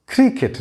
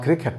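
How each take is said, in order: First: "Cricket" with a short I in -ket; correct pronunciation. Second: "cricket" with an open E in -ket; wrong pronunciation. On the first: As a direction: say "Cricket" as CRICK-it, high start. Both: Shown as a demonstration. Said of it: "not cricket".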